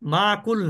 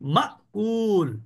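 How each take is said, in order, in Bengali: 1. মাঝের ধ্বনিটি কোনো বাধা ছাড়াই মসৃণভাবে প্রবাহিত হয়। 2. মাঝের ধ্বনিটি একটি তীক্ষ্ণ থামা দিয়ে কাটা হয়।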